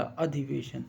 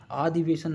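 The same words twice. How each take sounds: First: अधिवेशन with short first a, "a-dhi-ve-shan"; correct pronunciation. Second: अधिवेशन with long first vowel, "aa-dhi-ve-san"; mispronounced word. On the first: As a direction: open अधिवेशन on a short a, measured. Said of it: "ये वाला". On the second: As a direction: stretch the opening a of अधिवेशन into aa. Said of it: "नहीं होगा". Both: Shown as a demonstration.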